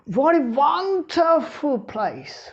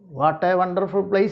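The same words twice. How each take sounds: First: It is said with strong feeling and lively pitch. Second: It is said flatly with no strong feeling. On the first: The speaker calls it right. "You have to make that sentence exclamatory by the tone" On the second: The speaker calls it wrong. "If you say like that, there is no exclamation in it"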